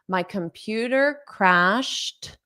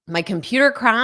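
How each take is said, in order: First: The sentence is spoken slowly. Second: The sentence is spoken fast. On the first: "I'll say it slowly" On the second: "So I'll say it fast"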